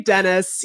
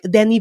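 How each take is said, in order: First: The name is said with an English pronunciation. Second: The name is said with a French pronunciation. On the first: "Never going to say Dennis" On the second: "he's French, you know, so I just feel like it's going to be a lot of him ensuring that he pronounces the director's"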